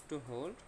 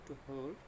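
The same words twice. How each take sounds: No difference in how they are said.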